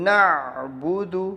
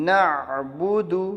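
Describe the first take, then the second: No difference in how they are said.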